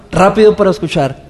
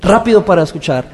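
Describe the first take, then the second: No difference in how they are said.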